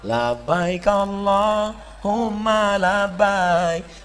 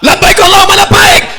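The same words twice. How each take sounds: First: It is said in a Javanese style. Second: It is said loudly, Sumatran style.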